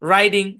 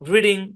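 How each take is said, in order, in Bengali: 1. প্রথম স্বরধ্বনিটি একটি লম্বা 'eye' ধ্বনি। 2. প্রথম স্বরধ্বনিটি একটি ছোট 'ih' ধ্বনি। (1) "সঠিক উচ্চারণ" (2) "ভুল উচ্চারণ"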